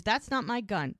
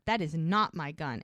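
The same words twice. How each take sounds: First: Higher-pitched protest of innocence; retold denial. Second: "That is not my gun" in full, stress on "not"; retold emphatic denial. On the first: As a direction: deny it quickly, voicing the accused man. Retold denial by accused man. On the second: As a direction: lean on "not", each word separate.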